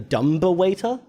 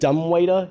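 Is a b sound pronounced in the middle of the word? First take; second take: yes; no. First: The b is sounded, adding a syllable. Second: The b is silent in the word. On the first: The speaker calls it wrong. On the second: The speaker calls it right.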